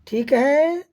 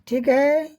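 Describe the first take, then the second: Both takes have the same delivery.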